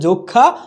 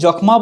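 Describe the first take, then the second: First: The m is silent, leaving only nasalization. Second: The m sound is pronounced clearly. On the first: The speaker calls it right. "হয়ে যাচ্ছে যক্ষা" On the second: The speaker calls it wrong. "আমরা কি যক্ষ্মা বলবো না"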